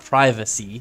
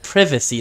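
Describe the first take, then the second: First: The word is said a non-British way. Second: The word is said the British way. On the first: The speaker calls it right. "not privacy" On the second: The speaker calls it wrong. "He said privacy"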